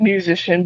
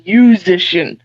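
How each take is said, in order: First: "musician" with its opening m, myoo-ZISH-un; like the ordinary word. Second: "musician" without the m, you-ZISH-un; app's own pronunciation. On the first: Guitarist showing what the name plays on, "musician" with the m. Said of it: "it's supposed to sound like". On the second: Guitarist correcting the app's name, "musician" said slowly without m. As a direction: drop the m from "musician" and draw it out. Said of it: "but it's musician". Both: Shown as a demonstration.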